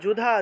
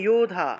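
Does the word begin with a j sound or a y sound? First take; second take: j sound; y sound. First: The word begins with a j sound. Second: The word begins with a y sound. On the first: The speaker calls it wrong. "যুধা আছে" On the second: The speaker calls it right. "উচ্চারণ হবে ইউধা"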